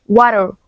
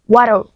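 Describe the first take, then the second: The two takes are said the same way.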